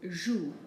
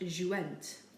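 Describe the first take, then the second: First: The word ends without a sounded ending. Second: The word ends with a sounded extra ending. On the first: The speaker calls it right. "we do not pronounce it" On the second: The speaker calls it wrong. "not jouent"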